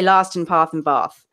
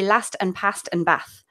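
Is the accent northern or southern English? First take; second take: southern; northern. First: The vowels sound like a southern English accent. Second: The vowels sound like a northern English accent. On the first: This is how it is expected to be said. The speaker calls it right. "I should say" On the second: This is how the family says it. The speaker calls it wrong. "because my family's from Manchester, I say"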